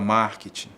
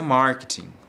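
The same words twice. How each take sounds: First: It is pronounced the Brazilian Portuguese way. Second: It is pronounced the English way.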